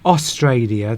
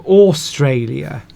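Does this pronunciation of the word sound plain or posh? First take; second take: plain; posh. First: It is said in a plain, ordinary accent. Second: It is said in a posh, over-emphasized accent. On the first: This is the ordinary way most people say it. "instead of saying Australia" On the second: The speaker is a bit upper-class. "if they're a bit posh"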